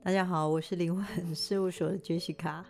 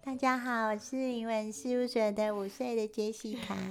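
First: It is said in her normal adult voice. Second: It is said in a put-on childlike voice.

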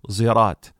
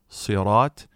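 First: It begins with an s blended with z. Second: It begins with an emphatic, heavy s sound. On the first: "and a mixture of sad and zay" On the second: "with sad"

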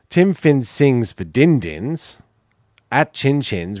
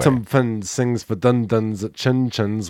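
First: It is said in the speaker's ordinary accent. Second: It is said in a New Zealand accent.

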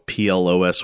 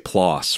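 First: The vowel does not rhyme with floss. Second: The vowel rhymes with floss. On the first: The speaker calls it wrong. "I've been calling this journal PLOS ONE" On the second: The speaker calls it right. "rhyming with floss"

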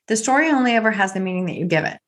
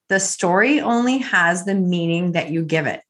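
First: It is said at a normal pace. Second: It is said slowly.

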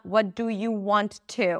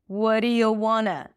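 First: 'Want to' is said as two full words. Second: 'Want to' is reduced to 'wanna'. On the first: The speaker calls it wrong. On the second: The speaker calls it right. "We turn it into wanna"

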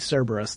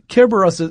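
First: The name begins with a soft S sound. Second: The name begins with a hard K sound. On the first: This is how it is commonly said in English. "we often will make it a soft C" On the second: This is how it is said in Greek. "that's the Greek pronunciation"

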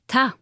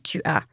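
First: The words merge into one short syllable. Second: Both words are said fully as two syllables. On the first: It is the casual spoken form among friends. "We say ta. It's just pronounced a little bit differently" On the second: It is the full written form. "we never say tu as"

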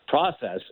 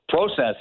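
First: It is said with an American pronunciation. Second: It is said with a Canadian pronunciation. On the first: "Process is what we say down here" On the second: "process is what we say in Canada"

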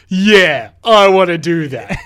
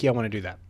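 First: It is said with a mocking, sarcastic tone. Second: It is said plainly, with a sincere tone. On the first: He does not want to go on the hike. "Let me try again" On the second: He really wants to go on the hike. "Like maybe he tried it straight"

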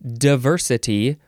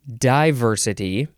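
First: The first syllable sounds like "duh". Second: The first syllable sounds like "die". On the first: "You can say duh or die" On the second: "You can say duh or die"

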